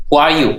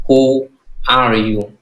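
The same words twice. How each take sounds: First: Said in the usual way. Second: Very slow, drawn out who are you; teacher modelling who are you slowly; slow model phrase. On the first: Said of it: "Trả lời luôn nhắc lại". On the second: Shown as a demonstration. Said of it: "Lo nói trẻ trẻ".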